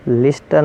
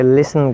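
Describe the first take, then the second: First: "لسٹن" with the T sounded after S; wrong pronunciation. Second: "لسن" with no T after the S; silent T. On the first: Teacher showing what we won't say, mispronounced with T sounded. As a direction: put a hard T in "لسٹن". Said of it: "لسٹن نہیں کہیں گے". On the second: Teacher giving the correct word, said with silent T. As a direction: let S run into N in "لسن". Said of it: "بلکہ لسن کہیں گے". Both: Shown as a demonstration.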